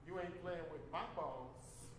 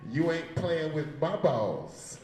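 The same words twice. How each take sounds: First: Quiet punchline. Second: Slow, louder punchline into the mic; the punchline again, drawn out for the mic. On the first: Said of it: "That was the punchline". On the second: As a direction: land the punchline slowly, right on the mic. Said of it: "I wanted to say it into the mic". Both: Shown as a demonstration.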